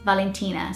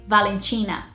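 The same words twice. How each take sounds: First: It is said the British English way. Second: It is said the south Brazilian way. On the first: "the British way would be" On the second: "the south of Brazil would say"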